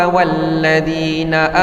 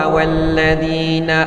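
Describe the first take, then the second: The two takes are said the same way.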